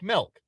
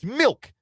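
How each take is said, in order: First: The vowel sounds like the 'e' in 'melk'. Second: The vowel sounds like the 'i' in 'mill'. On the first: "which I say like milk" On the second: "And Jake says, no, it's milk"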